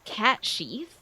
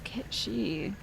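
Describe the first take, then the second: First: The name sounds like 'cat sheath'. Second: The name sounds like 'ketchi'. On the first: "I think it's Cat Sheath" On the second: "Oh, it's Ketchi"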